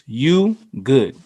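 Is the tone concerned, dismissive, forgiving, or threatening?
concerned. It sounds concerned and caring. The speaker is checking whether someone is okay. "this could mean literally, are you okay?"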